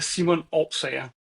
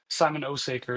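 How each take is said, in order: First: The surname is said with Danish pronunciation. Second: The surname is said with simplified English pronunciation. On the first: "in Danish, it would be" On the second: "is fine"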